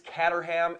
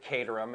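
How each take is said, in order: First: The first syllable sounds like 'cat'. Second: The first syllable sounds like 'Kate'. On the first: The speaker calls it wrong. "to all of you out there that think it's Caterham, it's not" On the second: The speaker calls it right. "C A T E spells Kate. ... clearly he pronounces it Caterham"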